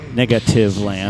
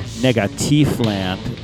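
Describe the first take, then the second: First: The name is said with ordinary English pronunciation. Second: The name is said with German-style pronunciation. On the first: The speaker is being ordinary. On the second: The speaker is being technical and pretentious.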